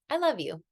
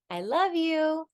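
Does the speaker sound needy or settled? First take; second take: settled; needy. First: It sounds settled, as a complete statement. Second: It sounds needy, as if expecting a reply. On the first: The speaker asks for no response. The speaker calls it right. "that's a complete sentence" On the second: The speaker wants to hear it said back. The speaker calls it wrong. "a very different vibe and feeling"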